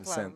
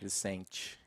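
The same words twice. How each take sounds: First: It is said in a European Portuguese accent. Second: It is said in an Espírito Santo Brazilian accent. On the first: "Em português de Portugal seria mais um Vicente" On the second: "em português, mas não é onde eu, mais de onde eu sou do Espírito Santo"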